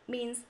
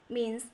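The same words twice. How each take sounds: Both takes have the same delivery.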